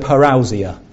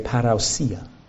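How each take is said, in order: First: The word is said with an English pronunciation. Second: The word is said with a Greek pronunciation.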